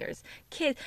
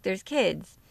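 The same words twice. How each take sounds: First: Whispered aside. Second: Said in the usual way. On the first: Real, not acted. Podcaster whispering to listeners about kids in park. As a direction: hush it to a whisper. Repeats line, first whispered.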